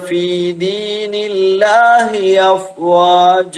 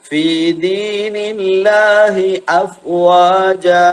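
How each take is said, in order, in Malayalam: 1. afwaja-യിലെ 'a' മുൻപുള്ള വാക്കിനോട് ചേർന്ന് ഒഴുകുന്നു. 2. afwaja-യിലെ 'a' ഗ്ലോട്ടൽ സ്റ്റോപ്പോടെ വേറിട്ട് തുടങ്ങുന്നു. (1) "എന്നല്ല" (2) "അ എന്നത് വേറെ തന്നെ വരട്ടെ"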